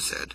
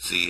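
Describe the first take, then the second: First: The letter is said the Canadian way. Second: The letter is said the non-Canadian way. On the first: The speaker calls it right. "I'm Canadian. That's the way we say it" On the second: The speaker calls it wrong. "It's not a Z"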